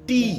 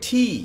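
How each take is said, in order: First: The T is said plain, without aspiration. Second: The T is said with a strong puff of air. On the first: The speaker calls it wrong. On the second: The speaker calls it right.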